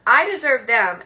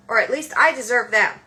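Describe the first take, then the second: First: I punched harder and louder, falling end; louder stress on I. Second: I stressed and held, then a fall; firm stress on I. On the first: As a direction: hit I again, louder. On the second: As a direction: lean on I in Or at least I deserve them. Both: Real, not acted.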